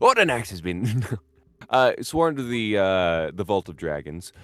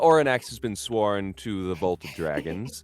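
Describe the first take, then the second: First: It is said in a put-on character voice. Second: It is said in the speaker's natural voice.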